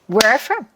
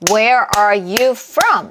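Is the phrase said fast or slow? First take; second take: fast; slow. First: It is said fast, almost like one word. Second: It is said slowly, each word given weight. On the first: The speaker calls it right. "hot 얘처럼 굉장히 빠르게 소리낼 수가 있어요 ... 이렇게 내셔야지" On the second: The speaker calls it wrong. "이게 아니라는 거예요"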